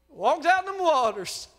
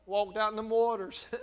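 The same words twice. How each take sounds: First: "Walked out in them waters." said loud and high; raised preaching. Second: Said in the usual way. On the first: Shown as a demonstration.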